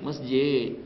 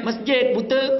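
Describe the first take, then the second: First: Said in the usual way. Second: High, loud mock snap; husband snaps back at wife, high and loud; rude snapping reply. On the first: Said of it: "Lain cara jawabnya". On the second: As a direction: bite the answer off rudely. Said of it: "Ha, kan lain".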